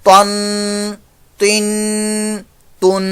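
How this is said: The final n carries a prolonged nasal sound. The speaker calls it wrong. "वो गुन्ने की साउंड पैदा कर देते हैं, ऐसे"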